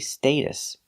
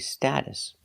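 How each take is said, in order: First: The first vowel is not a short ah sound. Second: The first vowel is a short ah sound. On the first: "We never say status" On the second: "In America, we always say status"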